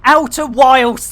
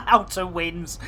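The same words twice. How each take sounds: First: Outer Wilds said slow and loud, clear; correcting the name. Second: Outer Winds said through laughter; laughing. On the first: Shown as a demonstration. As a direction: stress Outer Wilds firmly. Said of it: "That is the in". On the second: Real, not acted.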